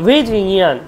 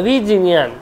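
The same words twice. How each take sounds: The two takes are said the same way.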